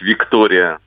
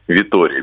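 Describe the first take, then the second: First: A k sound is heard before the t. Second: No k sound is heard before the t. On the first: The speaker calls it wrong. "говорить «Виктория» нам всем всегда удобнее" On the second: The speaker calls it right. "он все-таки «Витория» без буквы «К»"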